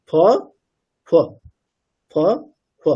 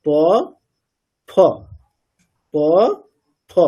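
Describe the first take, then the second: First: ফ breathed out between lips that do not fully touch; half pha demo. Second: ফ with both lips fully closed, contrasted with প; full pha demo. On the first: Teacher demonstrating half ফ, upadhmaniya, to students. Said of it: "পুরোপুরি touch না করে যদি একটা ফ বলি". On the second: Teacher demonstrating full ফ to the class, lips closed. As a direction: show a full ফ with the lips pressed shut. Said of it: "আমি যখন পূর্ণ ফ বলছি কেমন হচ্ছে". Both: Shown as a demonstration.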